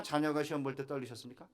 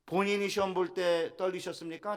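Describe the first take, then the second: First: Tip the weight onto 자녀가 in a calm level voice; stress on 자녀가. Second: 본인이 pushed higher and a bit louder; stress on 본인이. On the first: Pastor contrasting with the parents, stress on 자녀가. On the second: Pastor asking the congregation, stress on 본인이. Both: Shown as a demonstration.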